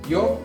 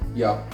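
First: The word is said with an 'o' vowel. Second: The word is said with an 'a' vowel. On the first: This is the Silesian dialect form. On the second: This is the standard Polish form.

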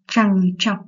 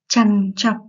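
First: The first syllable ends in an ng sound. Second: The first syllable ends in an n sound. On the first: The speaker calls it wrong. "đọc sai từ trằn trọc thành trằng trọc" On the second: The speaker calls it right. "một số bạn hay đọc sai từ trằn trọc"

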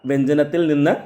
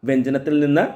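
Both takes have the same delivery.

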